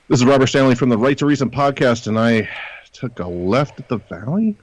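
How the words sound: It is said sarcastically, in a mocking tone.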